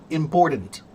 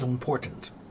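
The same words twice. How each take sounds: First: The t sounds soft, like a d. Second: The t is said crisply and clearly. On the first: The speaker calls it wrong. "Duh, duh, duh. Not ta, ta, ta. I still say they're wrong" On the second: The speaker calls it right. "Listen to me, this is important. ... You just have to enunciate"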